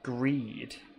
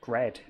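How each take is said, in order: First: The vowel is a long ee sound. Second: The vowel is a short e sound. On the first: The speaker calls it wrong. "I've been pronouncing it greed" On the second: The speaker calls it right. "they're both sharp E's, so it should be Gred"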